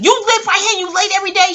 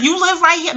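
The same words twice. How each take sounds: First: Mock teacher scolding, higher and louder; angry teacher. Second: Imitating a surprised teacher, raised pitch; a lightly voiced stunned teacher asking back; incredulous teacher. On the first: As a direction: imitate the outraged teacher snapping the question. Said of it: "Miss Lewis said". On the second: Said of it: "She was like".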